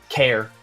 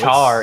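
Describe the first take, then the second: First: It begins with a 'k' sound, like care. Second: It begins with a 'ch' sound, like char. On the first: The speaker calls it right. "even though it should be care" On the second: The speaker calls it wrong. "everyone wants to pronounce it char"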